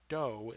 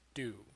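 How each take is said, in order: First: The vowel is a long 'oh' sound. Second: The vowel is an 'oo' sound. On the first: The speaker calls it wrong. "This is not do" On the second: The speaker calls it right. "it is do"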